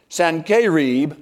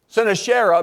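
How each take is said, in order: First: The name is said with a Hebrew pronunciation. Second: The name is said with an English pronunciation. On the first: "in the Hebrew, it actually is Sennacherib" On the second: "is the way we would pronounce it"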